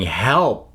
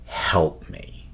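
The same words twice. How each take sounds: First: Said in the usual way. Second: Breathy hushed help me; mock eerie plea. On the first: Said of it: "screaming, going". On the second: Describing the bear scene, a hushed, unvoiced eerie plea. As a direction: whisper it like a dying voice. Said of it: "It screams in this woman's voice".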